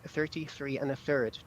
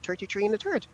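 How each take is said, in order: First: The th sounds are pronounced as a clear th. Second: The th sounds are altered, in an Irish way. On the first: The speaker calls it right. "I know how to pronounce my T H's correct. So um, I'm able to say thirty-three and a third properly" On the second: The speaker calls it wrong. "as opposed to Irish people would normally say"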